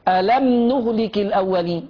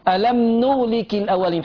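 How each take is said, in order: The two takes are said the same way.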